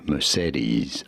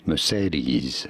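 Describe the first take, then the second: First: It is said with an English pronunciation. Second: The same.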